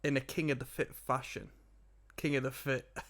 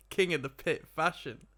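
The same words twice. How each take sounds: First: "King of the Fit" slurred, "Pit" said as "Fit"; slurring words. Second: "King of the Pit" with a crisp P on "Pit"; clear correction. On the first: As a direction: slur "King of the Fit" so the P comes out as an F. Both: Real, not acted. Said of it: "I'm slurring my words together".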